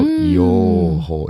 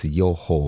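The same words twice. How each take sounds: First: The first vowel is held long. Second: The first vowel is kept short. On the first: The speaker calls it wrong. "it's not 予報" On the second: The speaker calls it right. "it's short 予報"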